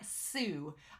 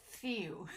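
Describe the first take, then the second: First: The s is made with the tongue at the teeth. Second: The s is made with the tongue raised, sounding lisped. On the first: "my tongue is like at my teeth" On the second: "it almost seems like I have a lisp"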